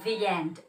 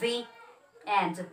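First: The two words are linked without a break. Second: The two words are separated by a break. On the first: The speaker calls it right. "So you're going to connect the words" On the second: The speaker calls it wrong. "It's not the end"

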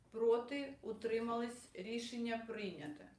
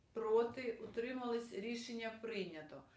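No difference in how they are said.

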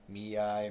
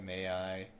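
First: The first syllable sounds like 'me'. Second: The first syllable sounds like 'may'. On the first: The speaker calls it right. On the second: The speaker calls it wrong.

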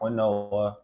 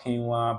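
First: It is said with a personal, nonstandard pronunciation. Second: It is said with the standard pronunciation. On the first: "but I call it quinoa" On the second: "It is pronounced quinoa"

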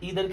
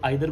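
First: The first vowel sounds like 'ee'. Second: The first vowel sounds like 'eye'. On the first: "ईदर की जगह" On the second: "कुछ लोग आइदर बोलते हैं, वो भी ठीक है"

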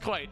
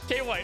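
First: The name is said as one syllable, like quite. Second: The name is said as two syllables, K then White. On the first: The speaker calls it right. "It's quite" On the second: The speaker calls it wrong. "am I pronouncing that right?"

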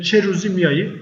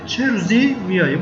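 First: The first word 'çe' carries the stress. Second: The first word 'çe' carries no stress. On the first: It asks which day someone is coming. "soru cümlesinde çe vurgu alıyor" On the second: It is an exclamation rather than a question. "Burada ise bu kelime vurgu alıyor, çe vurgu almıyor"

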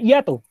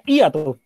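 First: The stress falls on the vowel a. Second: The stress falls on the vowel i. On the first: "si llevara en la A sería hiato" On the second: "si le pones tilde sería hiato en la I"

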